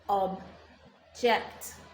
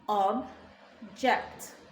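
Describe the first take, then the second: Both takes have the same delivery.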